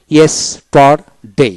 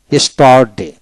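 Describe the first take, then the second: First: ইয়েস্টারডে slow, in three separate parts; split into syllables. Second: Said in the usual way. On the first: Shown as a demonstration. Teacher showing the parts of a word, slow split syllables. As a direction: break ইয়েস্টারডে into ইয়েস, টার, ডে. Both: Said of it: "এভাবে".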